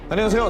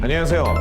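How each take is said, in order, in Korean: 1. 고등학생 남자아이 목소리로 연기되어 있어요. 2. 성인 남자 목소리로 연기되어 있어요. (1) "고등학생 남도일의 목소리" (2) "그 배우의 목소리를 내서"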